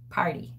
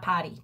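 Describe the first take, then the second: First: The r is clearly pronounced in the word. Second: The r is dropped, sounding like potty. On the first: The speaker calls it right. "Not potty, party" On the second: The speaker calls it wrong. "Potty with my New York accent"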